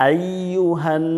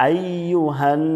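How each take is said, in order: No difference in how they are said.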